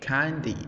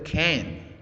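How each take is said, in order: First: It is said with an Australian accent. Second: It is said with an American accent. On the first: "the Australians say" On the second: "the American people say"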